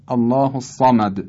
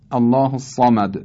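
First: الصمد with a light echoing bounce on the final dal; natural qalqala. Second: الصمد ending in a clear rebounding dal; natural qalqala. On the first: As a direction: let the د of الصمد rebound naturally. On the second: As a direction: echo the final د of الصمد. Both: Shown as a demonstration. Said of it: "تلفظ این صدا بسیار طبیعی است".

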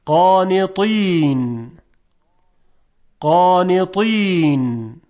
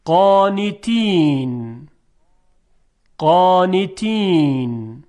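First: Slow قانطین with a thick, emphatic ط; careful recited model of قانطین with dark ط; heavy emphatic ta. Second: Slow قانتین with a light, thin t; careful recited model of قانتین with unemphatic ت; light dotted ta. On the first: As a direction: stretch قانطین, making the ط full and heavy. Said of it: "حالا با حرف تا". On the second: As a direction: stretch قانتین, keeping the ت fine and delicate. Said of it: "اول با ت دو نقطه". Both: Shown as a demonstration.

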